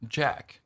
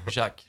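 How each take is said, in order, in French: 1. Le nom est prononcé à l'anglaise. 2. Le nom est prononcé à la française. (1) "C'est Jack en tout cas à l'anglaise hein, ou à l'américaine. / ça se prononce Jack" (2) "Le Jack, Jack français, c'est Jack"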